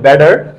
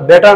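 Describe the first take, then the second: First: The middle consonant sounds like a d. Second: The middle consonant is a clear t sound. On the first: "বলে ব্যাটার" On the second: "বেটার না বলে"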